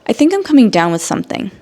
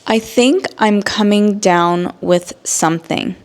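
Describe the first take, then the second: First: The sentence is said quickly with words run together. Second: The sentence is said at a normal, careful pace.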